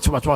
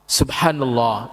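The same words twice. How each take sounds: First: It is said fast and slurred. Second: It is said slowly and clearly.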